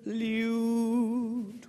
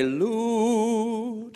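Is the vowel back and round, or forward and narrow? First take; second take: Forward; Back. First: The vowel is forward and narrow. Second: The vowel is back, round and open. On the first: The speaker calls it wrong. "which immediately goes forward and gets a little bit narrow" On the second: The speaker calls it right. "a much better thing to sing"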